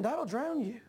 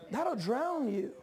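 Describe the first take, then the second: First: Said in the usual way. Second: "That'll" leaned on, the whole line drawn out slowly; slow emphatic repeat. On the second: Shown as a demonstration. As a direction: land "That'll drown you" slowly, word by word. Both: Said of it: "repeats for emphasis".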